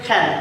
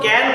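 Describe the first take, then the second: First: The first k sound has a puff of air. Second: The first k sound has no puff of air. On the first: The speaker calls it right. "উচ্চারণ হবে খ্যান, খ" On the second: The speaker calls it wrong. "তো ক্যান না"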